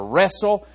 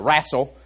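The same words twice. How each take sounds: First: It is said with a standard pronunciation. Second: It is said with a West Virginia pronunciation.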